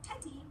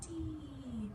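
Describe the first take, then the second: First: The vowels are short and quick. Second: The vowels are held out long. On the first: "instead of just teddy" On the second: "really hold out those vowels"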